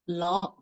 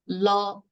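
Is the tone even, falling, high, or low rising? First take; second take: low rising; even. First: The pitch starts low and rises. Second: The pitch stays level and mid. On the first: "The fourth" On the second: "the even tone is la"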